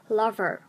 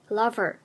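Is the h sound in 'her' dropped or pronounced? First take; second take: dropped; dropped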